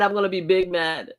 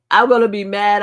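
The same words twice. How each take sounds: First: Said in the usual way. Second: Louder, punchy mad threat. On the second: Shown as a demonstration.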